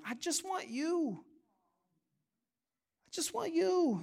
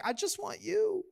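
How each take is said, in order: First: Put-on very soft, small-child plea; sweet little daughter. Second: High, soft mock whimper; imitated crying child. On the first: Daughter looks up at dad, sweet soft imitation. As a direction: imitate a little girl asking softly. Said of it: "melts my heart when she looks at me and says". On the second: Daughter runs back to dad in tears, imitated crying plea. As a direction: mimic a tearful little girl. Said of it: "screaming and crying".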